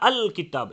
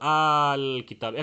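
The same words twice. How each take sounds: First: The hamza is a hard, abrupt glottal stop. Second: The hamza is a vowel lengthened one beat. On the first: "এরকম শক্ত করা যাবে না" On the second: "আলিফের মতো আল কিতাব এক আলিফ মদ করেও না"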